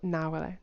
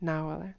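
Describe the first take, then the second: Both takes have the same delivery.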